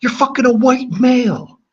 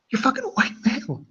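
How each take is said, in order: First: Very high, loud put-on voice; hammed-up outburst, pitched way up; mock outraged squeal. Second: Very high, soft put-on voice; squeaky outburst with the volume pulled down; hushed mock outrage. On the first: High-voiced meme outburst at chat. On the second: Repeats meme outburst, held back.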